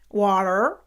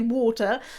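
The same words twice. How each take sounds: First: It is said in a plain, non-posh accent. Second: It is said in a posh accent. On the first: "you're wrong, because it is water" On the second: "pronouncing it the posh way"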